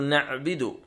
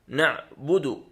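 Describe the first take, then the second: First: The b is not followed by the vowel u. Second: The b is followed by the vowel u. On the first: The speaker calls it wrong. "كثير من الناس يقول" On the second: The speaker calls it right. "بضم الباء"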